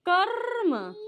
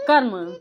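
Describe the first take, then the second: First: कर्म with a long, trilled र in the middle; drawn-out middle R. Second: Said in the usual way. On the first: Shown as a demonstration. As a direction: stretch the र in कर्म so it is clearly heard. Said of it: "आ रहे हैं ना बीच में रा?".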